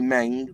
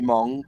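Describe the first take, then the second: First: The vowel sounds like 'eh'. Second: The vowel sounds like 'oh'. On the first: This is how English speakers say it. "we say Meng" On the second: This is how Chinese speakers say it. "they say Mong"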